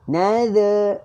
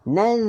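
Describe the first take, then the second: First: A vowel is added after the final z. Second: The word ends on the z sound. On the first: The speaker calls it wrong. "ah tak tak nak" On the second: The speaker calls it right. "Ah begitu tuan-tuan"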